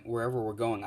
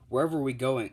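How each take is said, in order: First: Said in the usual way. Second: Louder, a bit higher eager call; keen, louder first go; eager boast. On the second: Acted. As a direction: pipe up keen to show off. Dragon boy eager to fly hero.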